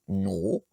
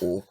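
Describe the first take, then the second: First: The word starts with an ng consonant. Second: The word starts directly with a vowel. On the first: This is the full form of the word for I. "au lieu de dire non" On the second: This is the shortened form a local speaker might use. "juste oh"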